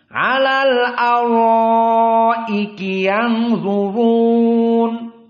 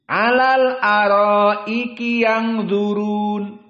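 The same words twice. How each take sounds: First: The r sounds are heavy and full. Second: The r sounds are light and thin. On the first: The speaker calls it right. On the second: The speaker calls it wrong. "Itu tarkik"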